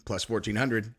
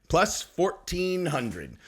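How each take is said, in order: First: Said in the usual way. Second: "Plus fourteen hundred" stretched out very slowly; savoured emphasis. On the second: Real, not acted. Bettor repeating the long odds he won at, "Plus fourteen hundred" slow and drawn out. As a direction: draw out each word of "Plus fourteen hundred" to let it sink in.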